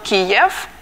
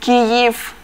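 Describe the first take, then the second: First: The city name is said the Russian way. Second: The city name is said the Ukrainian way. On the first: The name marks the city as part of a colony. The speaker calls it wrong. "not Kiev" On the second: The name keeps its original native form. The speaker calls it right. "which was called Kyiv"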